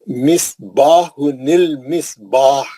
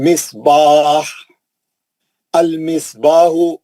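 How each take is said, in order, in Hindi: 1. दोनों शब्द बिना ठहराव के जुड़े हुए हैं। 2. दोनों शब्दों के बीच ठहराव है।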